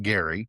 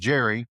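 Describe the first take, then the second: First: The name begins with a hard G sound. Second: The name begins with a soft J sound. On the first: This is how the man himself said his name. The speaker calls it right. "He said it with a hard G like Gary" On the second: This is how history remembers the name. The speaker calls it wrong. "history remembers it as Jerry"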